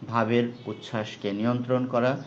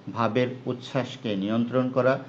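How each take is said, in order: No difference in how they are said.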